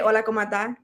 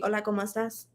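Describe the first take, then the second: First: The final s sound is dropped. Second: The final s sound is pronounced. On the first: It reflects a Dominican way of speaking. "I don't like to say my S's a lot. ... I just say it like that" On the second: It is the standard form. "it's supposed to be hola como estás"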